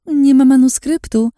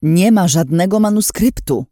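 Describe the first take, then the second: First: Much higher and louder sing-song mimicry of nie ma; mocking echo. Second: Louder, higher, cutting father's cry; father cutting through the silence, shouting; defiant shout. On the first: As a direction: parrot his words back in scorn, stressing nie. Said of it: "Co tam mówiłeś". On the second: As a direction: slam it down, stress on ma. Głos taty przeciął ciszę. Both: A narrator's reading.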